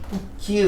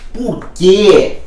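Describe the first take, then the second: First: The word que is weak and unstressed. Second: The word que is strong and stressed. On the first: "que fraquinho" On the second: "esse que virou um monossílabo tônico"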